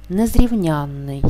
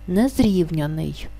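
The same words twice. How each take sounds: First: Slow незрівнянний, stressed on the suffix ЯН; наголос на суфіксі. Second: Slow незрівняний, stressed on РІВ before the suffix; наголос не на суфіксі. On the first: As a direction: stress the ЯН syllable in незрівнянний, with a long doubled н. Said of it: "знаходиться під наголосом". (наголос на ЯН у слові незрівнянний, подовжений н) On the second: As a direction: stress the РІВ syllable in незрівняний, with a single short н. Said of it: "наголос падає не на суфікс". (наголос на РІВ у слові незрівняний, один н) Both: Shown as a demonstration.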